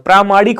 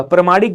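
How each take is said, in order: First: प्रामाणिक with long first vowel, praa-; correct form. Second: प्रामाणिक with first vowel shortened to pra-; wrong form. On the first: Teacher correcting the option, long-vowel pronunciation. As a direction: open प्रामाणिक on a held "praa". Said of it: "प्रामाणिक होता है मेरे भाई". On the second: Teacher pointing out misspelt option, short-vowel mispronunciation. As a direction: say प्रामाणिक as "pramaanik", short start. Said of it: "प्रामाणिक गलत लिखा हुआ है". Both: Shown as a demonstration.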